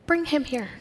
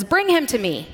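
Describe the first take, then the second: First: Gently spoken invitation; gentle. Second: Said in the usual way. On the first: Shown as a demonstration. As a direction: say it kindly, as a welcome. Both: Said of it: "read these stories with a gentleness".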